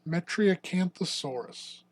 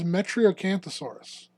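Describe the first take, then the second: First: The name is said slowly and drawn out. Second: The name is said at an ordinary pace.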